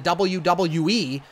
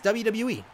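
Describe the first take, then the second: First: The letters are said with exaggerated, drawn-out emphasis. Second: The letters are said plainly, without extra emphasis. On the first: The speaker calls it wrong. "they overemphasize it" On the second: The speaker calls it right. "It's just W W E"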